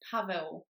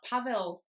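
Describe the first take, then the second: First: The name ends with a W sound. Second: The name ends with a clear L sound. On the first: The speaker calls it right. "the L with a stroke is pronounced W" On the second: The speaker calls it wrong. "It's not Pavel"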